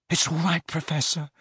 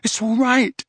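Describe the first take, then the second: First: Soft, anxious soothing; hushed, worried comfort; gentle reassurance. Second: High, raised-voice insistence; loud, anxious comforting; loud reassurance. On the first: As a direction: soothe him softly, pitch slightly raised. First, softer take of reassurance. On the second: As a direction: call it out to get through to him. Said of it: "said Harry loudly". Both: A narrator's reading.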